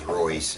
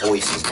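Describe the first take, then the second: First: The name begins with an R sound. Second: The name begins with an H sound. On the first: This is how people in America say it. The speaker calls it wrong. "here in America, everybody thinks" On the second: This is how it is said in Portuguese. The speaker calls it right. "when the R is in the front of the word, it's pronounced as an H"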